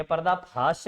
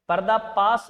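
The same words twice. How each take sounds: First: पर्दा फाश with f-like ph and sh; correct pardafash. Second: पर्दा पास with plain p and s; wrong pardafash. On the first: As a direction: end फाश with a clear sh. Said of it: "ये पर्दा फाश है". (फाश में फ और श, सही उच्चारण) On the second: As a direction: say पास as paas, the wrong ending. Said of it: "पर्दा पास नहीं है". (पास में प और स, गलत उच्चारण) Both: Shown as a demonstration.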